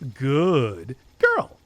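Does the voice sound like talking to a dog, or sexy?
sexy. It is said in a low, seductive voice. "in a sexy voice"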